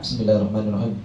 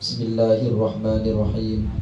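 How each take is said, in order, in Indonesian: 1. Dibaca cepat, vokal akhirnya dipendekkan. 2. Dibaca tidak terburu-buru, vokal akhirnya dipanjangkan. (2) "Itu ada huruf mat-matnya di belakang"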